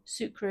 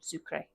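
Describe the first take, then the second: First: It is pronounced the French way. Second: It is pronounced the Spanish way. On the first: "is the French pronunciation" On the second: "Spanish pronunciation"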